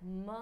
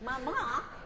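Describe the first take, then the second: First: It is said tenderly, with endearing tones. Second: It is said in an irritated way.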